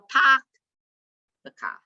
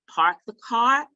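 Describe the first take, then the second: First: It is said in a Boston accent. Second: It is said in a general American accent.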